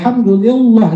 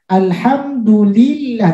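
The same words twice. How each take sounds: First: The L in 'llah' sounds heavy and dark. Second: The L in 'llah' sounds light and thin. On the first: The speaker calls it wrong. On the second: The speaker calls it right.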